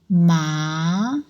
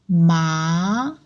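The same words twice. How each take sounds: First: The pitch rises from mid to high. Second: The pitch rises from mid to high.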